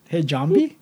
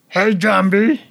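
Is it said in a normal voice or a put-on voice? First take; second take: normal voice; put-on voice. First: It is said in his normal voice. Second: It is said in a Pee-wee-like put-on voice.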